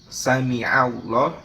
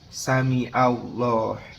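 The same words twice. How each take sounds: First: A throaty ain consonant is heard mid-word. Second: A plain vowel replaces the throaty consonant. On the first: It means God hears. The speaker calls it right. "menggunakan uh, huruf ain" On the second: It has no meaning. The speaker calls it wrong. "tetapi kita menggunakan huruf alif"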